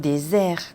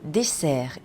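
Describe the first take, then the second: First: The middle consonant is a buzzing z sound. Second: The middle consonant is a hissing s sound. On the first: It means a desert, the dry sandy place. The speaker calls it wrong. "aquí no hay que zumbar" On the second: It means the sweet course after a meal. The speaker calls it right. "hay que sesear"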